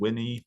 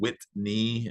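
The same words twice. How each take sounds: First: The T in the middle is dropped. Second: The T in the middle is clearly pronounced. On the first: The speaker calls it wrong. "it'll just kind of not hear the T" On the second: The speaker calls it right. "if you don't enunciate like really obviously. Like I said"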